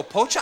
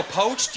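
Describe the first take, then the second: First: "Pocha" with an added final "ah"; Spanish-style "Pocha". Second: Said in the usual way. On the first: Shown as a demonstration. Comic as manager, "Pocha" with final "ah". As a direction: say "Pocha" as two syllables, lifted at the end. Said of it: "you go". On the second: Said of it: "I go".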